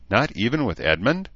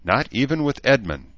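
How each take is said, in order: First: Higher questioning rise on Edmund; a touch of disbelief, asking; surprised. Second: Higher, falling end on Edmund; admitting. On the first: Elf questioning the human woman about Edmund, surprised. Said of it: "Bass said, surprised". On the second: Human woman confirming it to the elf, admitting. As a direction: confess it as a settled statement. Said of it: "Danae admitted". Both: A narrator's reading.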